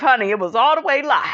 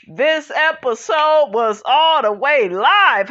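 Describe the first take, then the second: First: Quick, tossed-off "all the way live"; fast repeat. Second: Slow, stretched "live"; slow emphatic. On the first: Host repeating to viewers the episode was wild, fast. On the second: Host telling viewers the episode was wild, slow emphasis. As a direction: drag out "all the way live" slowly. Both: Shown as a demonstration. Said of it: "emphatic repeat".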